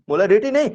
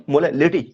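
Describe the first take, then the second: First: मोलारिटी with an R sound, pitched high; wrong word rejected. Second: मोलालिटी with an L sound in place of R; corrected word. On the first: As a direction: say मोलारिटी with "ri", then dismiss it. (मोलारिटी में "र" को ऊँचे सुर में बोलकर नकारना) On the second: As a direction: settle on "la-li-ty" in मोलालिटी at usual pitch. (मोलालिटी में "र" की जगह "ल" का उच्चारण) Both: Shown as a demonstration.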